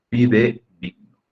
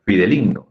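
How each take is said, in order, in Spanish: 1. La tercera sílaba empieza con sonido D. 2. La tercera sílaba empieza con sonido L. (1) "Ambas con D" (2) "Suena chistoso"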